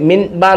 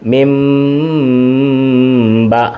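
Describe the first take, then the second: First: The nasal before b sounds like n. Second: The nasal before b sounds like m. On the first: "ഇത് യഥാർത്ഥത്തിൽ മിൻ ബ എന്നാണ്" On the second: "ആ മീമിൻ്റെ ശബ്ദത്തിൽ"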